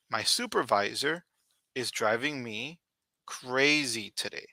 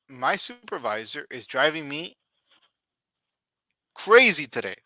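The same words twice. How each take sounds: First: Said in the usual way. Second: Rising to a louder exasperated "crazy"; exasperated complaint. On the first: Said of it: "example sentence repeated". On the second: Shown as a demonstration. Teacher reads an annoyed example sentence, exasperated. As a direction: complain about the boss, hitting "crazy". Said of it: "example sentence read".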